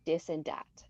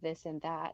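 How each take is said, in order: First: It is said with a Quebec French accent. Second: It is said with a neutral English accent. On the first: "where Quebecers will say dis and dat" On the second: "Instead of this and that"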